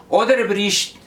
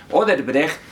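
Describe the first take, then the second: First: Mock mangled "Odebrecht", pitched up, ending in "-brish"; imitated mispronunciation. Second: Said in the usual way. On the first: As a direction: mimic a botched "Odebrecht", last syllable as "brish". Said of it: "Ni siquiera es el nombre correcto pronuncia". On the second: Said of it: "y no sabe decir Odebrecht".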